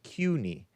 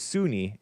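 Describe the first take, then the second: First: The word begins with a K sound. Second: The word begins with an S sound. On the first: The speaker calls it right. "but it's pronounced CUNY" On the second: The speaker calls it wrong. "I thought it was SUNY"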